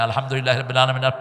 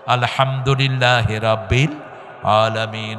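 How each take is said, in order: First: It is recited quickly, without pauses. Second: It is recited slowly, with pauses.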